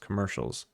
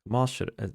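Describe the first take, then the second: First: It is said with a plain English accent. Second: It is said with a Japanese accent.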